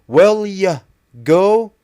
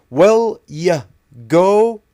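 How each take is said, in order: The two takes are said the same way.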